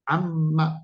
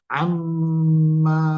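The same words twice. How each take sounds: First: The final ma vowel is short. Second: The final ma vowel is drawn out long. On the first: The speaker calls it right. "Ingat ini bacanya pendek loh ya" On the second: The speaker calls it wrong. "ma-nya kepanjangan, salah"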